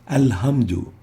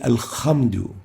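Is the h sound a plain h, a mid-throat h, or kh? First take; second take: plain h; kh. First: It has a light h from the lower throat. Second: It has a rasping kh from the upper throat. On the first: "they say alhamdu" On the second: "exchanging the ha with the kha"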